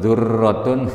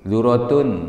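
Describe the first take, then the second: First: The r sound is doubled and held longer. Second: The r sound is short, not doubled. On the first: It changes to a different meaning. The speaker calls it wrong. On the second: It means corn. The speaker calls it right.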